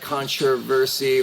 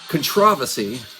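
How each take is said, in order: First: It is said in an American accent. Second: It is said in a put-on British accent.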